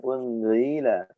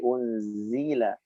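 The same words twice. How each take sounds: First: The middle consonant is a soft th sound. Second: The middle consonant is a hissing z sound. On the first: The speaker calls it wrong. "Bukan unzila" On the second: The speaker calls it right. "tapi unzila. Ada sedikit desis"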